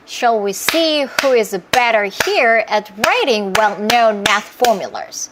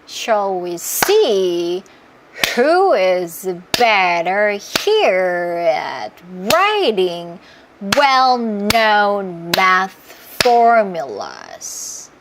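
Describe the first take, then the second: First: The sentence is spoken faster with claps. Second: The sentence is spoken slowly with claps. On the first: "조금 더 빨라지는 것뿐이에요" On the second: "천천히 해볼게요"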